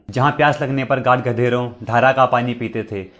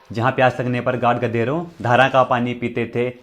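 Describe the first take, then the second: No difference in how they are said.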